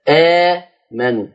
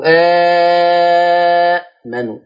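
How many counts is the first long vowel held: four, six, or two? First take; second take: two; six. First: The first long vowel is held for two counts. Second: The first long vowel is held for six counts. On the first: "اتنين" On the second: "أو ستة"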